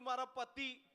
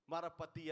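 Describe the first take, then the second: First: High-pitched tearful woman; mock tearful. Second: Said in the usual way. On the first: Weeping woman names her problem at last, mock tearful. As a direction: whine it as if crying. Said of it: "એક બેન રડતા હતા". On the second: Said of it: "અને મેં પતિઓના સાહેબ પ્રકાર લખ્યા".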